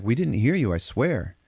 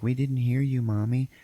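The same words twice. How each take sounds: First: Higher, lightly acted innocent denial; husband's protest. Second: Put-on higher, mildly childlike protest; a hint of a little boy pleading; lightly voiced kid. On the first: Teller voices husband swearing to wife, light protest. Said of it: "And he's like". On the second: Teller voices kid answering his mommy, lightly childlike. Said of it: "And the kid's like".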